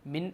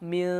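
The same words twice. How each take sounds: First: The final n is pronounced clearly. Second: The final n is hidden in a nasal sound. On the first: The speaker calls it wrong. "മിൻ എന്ന് പറയേണ്ട" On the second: The speaker calls it right. "മിൻ എന്ന് പറയാം"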